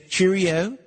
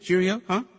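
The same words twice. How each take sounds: First: Put-on "cheerio" tried in a playful British accent, rising at the end; a cheeky stab at English "cheerio"; a host trying out British slang for a Manchester caller; mock British cheerio. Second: "Cheerio" repeated in a light put-on British accent, as a question; "Cheerio, huh" checking if the English accent landed; host asks the English caller to rate his accent; mock British cheerio. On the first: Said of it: "as they say". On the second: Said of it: "Is that good?".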